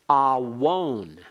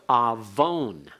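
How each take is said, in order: First: A w sound comes between the two vowels. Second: A v sound comes between the two vowels. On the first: The letter is treated as a consonant. "alternatively pronounced awon" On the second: This is the modern Hebrew way of saying it. "the modern Hebrew pronunciation"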